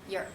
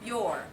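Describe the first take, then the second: First: The word is said quickly in reduced form. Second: The word is said fully, without reduction.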